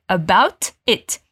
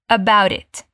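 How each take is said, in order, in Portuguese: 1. Todo som de t é claramente pronunciado. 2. O t final é omitido e ligado à palavra seguinte. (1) "Se a gente fosse pronunciar mesmo cada T" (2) "é bem comum na pronúncia americana não falar esse T no final"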